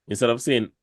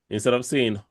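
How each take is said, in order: No difference in how they are said.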